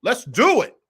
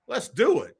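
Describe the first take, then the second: First: Higher and louder, rising on do; hyped opener. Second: Said in the usual way. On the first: Real, not acted. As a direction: kick the show off with a punch. Hyped opening call to start.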